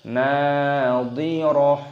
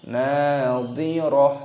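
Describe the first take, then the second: The two takes are said the same way.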